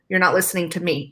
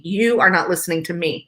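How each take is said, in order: First: Said in the usual way. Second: "You are not" spelled out word by word, each one pressed as an accusation; accusatory stress. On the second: Shown as a demonstration. Wife showing how partners accuse each other, pressing "You are not". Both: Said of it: "the accusatory".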